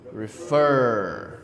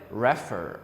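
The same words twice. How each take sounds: First: The stress is on the last syllable. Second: The stress is on the first syllable. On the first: The speaker calls it right. "You see the stress is in the last syllable" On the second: The speaker calls it wrong. "Not, not like refer or something"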